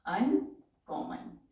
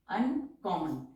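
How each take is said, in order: First: Drawn out and even; slow dictation. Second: Said in the usual way. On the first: Shown as a demonstration. Teacher dictating a word to shorthand class, slowly.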